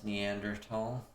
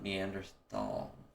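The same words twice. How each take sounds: First: The last syllable sounds like 'tall', with a T. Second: The last syllable has a 'th' sound, not T. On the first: The speaker calls it right. "Tal means valley in German and it's pronounced like tall" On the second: The speaker calls it wrong.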